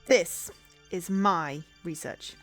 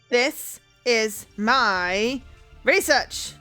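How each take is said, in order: First: It is mumbled quietly and indistinctly. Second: It is said clearly and more firmly.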